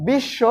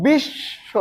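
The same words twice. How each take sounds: First: বিশ্ব said whole as "bishsho"; short, joined "bishsho" with a doubled sh, no ব; doubled consonant. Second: বিশ্ব pulled apart, "bishh... sho"; higher, drawn-out "bish", a gap, then "sho"; split doubled consonant. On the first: Teacher showing students the whole word, বিশ্ব as joined "bishsho". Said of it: "এবারে দেখো". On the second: Teacher breaking the word up for students, বিশ্ব as "bish... sho". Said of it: "দ্বিত্ব কিভাবে উচ্চারিত হবে?". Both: Shown as a demonstration.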